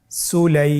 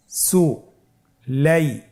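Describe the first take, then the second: First: "সুলাই" said as one smooth word; joined word. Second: "সু" and "লাই" said as separate beats with a pause; syllables apart. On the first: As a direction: join the syllables into "সুলাই". ("সুলাই" একসাথে জুড়ে) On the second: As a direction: break "সু লাই" into two. ("সু" আর "লাই" আলাদা করে থেমে থেমে) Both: Shown as a demonstration. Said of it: "বানান ছাড়া ভেঙে ভেঙে পড়ব".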